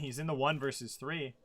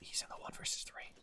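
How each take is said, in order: First: It is spoken in a normal loud voice. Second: It is spoken in a whisper.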